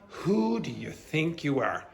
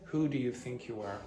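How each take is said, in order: First: The intonation is lively and indignant. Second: The intonation is flat and unemotional. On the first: The speaker calls it right. "You have to say" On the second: The speaker calls it wrong. "You can't say"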